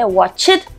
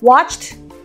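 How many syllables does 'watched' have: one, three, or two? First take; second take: two; one. First: The word is split into two syllables. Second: The word is said as one syllable. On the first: The speaker calls it wrong. "두음절로 하시는 분도 있고요" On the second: The speaker calls it right. "한숨에 watched 하고 끝에 치트 치트 치트만 붙이는 거예요"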